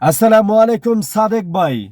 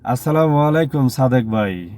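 First: The greeting is said in a strong, clear voice. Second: The greeting is said in a weak, flat voice. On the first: The speaker calls it right. "আমি একটা সালাম দিয়েছি এভাবে।" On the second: The speaker calls it wrong. "এটা নন ভয়েসের ভিতরে পড়ে গেছে।"

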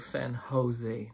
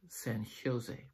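First: The J is pronounced like an H. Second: The J is pronounced like an English J. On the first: The speaker calls it right. "the J in the beginning of the word is not pronounced like a J, but like an H. It's also San Jose" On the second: The speaker calls it wrong. "not San Jose"

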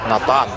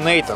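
First: The name is said the Russian way. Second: The name is said the English way. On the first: This is how Russians say the name. "Русские говорят Натан" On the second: This is how the name's owner says it. "Я говорю Нейтан"

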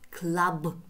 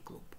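First: The word is pronounced the English way. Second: The word is pronounced the Russian way. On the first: The speaker calls it right. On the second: The speaker calls it wrong. "не клуб"

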